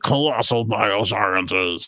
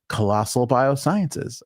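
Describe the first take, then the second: First: It is said in a big, booming announcer voice. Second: It is said in a plain, ordinary voice. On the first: The speaker calls it right. "You'd have to be like ... A lot of echo, a lot of explosions" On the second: The speaker calls it wrong. "I couldn't just say"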